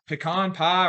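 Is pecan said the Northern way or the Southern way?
Northern. Pecan is said the Northern way. "All the Northerners try to correct me on"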